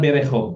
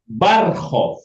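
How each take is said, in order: First: It begins with 'be' and keeps the 'e' after 'r'. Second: It begins with 'bar' and drops the vowel after 'r'. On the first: The speaker calls it wrong. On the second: The speaker calls it right.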